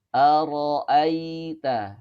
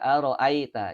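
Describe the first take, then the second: First: The 'ai' sound is softened and smooth. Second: The 'ai' sound is hard, not softened. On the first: The speaker calls it right. "cara membacanya dilembutkan" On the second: The speaker calls it wrong. "ini kurang tepat"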